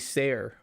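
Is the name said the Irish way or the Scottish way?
Irish. It is said with an Irish 'say-er' vowel. This is the form that means free. "in Irish it would be Sayer"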